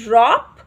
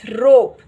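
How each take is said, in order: First: The vowel is short, as in hop. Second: The vowel is long, like the letter O. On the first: The speaker calls it wrong. "It is not" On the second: The speaker calls it right. "It's"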